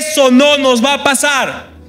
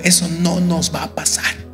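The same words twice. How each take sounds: First: It is said louder, with conviction. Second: It is said at a normal, softer volume.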